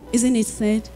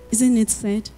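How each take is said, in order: Both takes have the same delivery.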